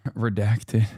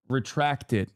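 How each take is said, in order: First: Laughing. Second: Said in the usual way. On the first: Shown as a demonstration. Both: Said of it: "sorry, retract it".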